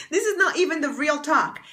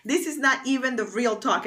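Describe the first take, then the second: First: Laughing while saying it, a bit higher; amused nervous laugh. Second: Said in the usual way. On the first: Real, not acted. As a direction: let the laugh spill through. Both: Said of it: "It's so funny".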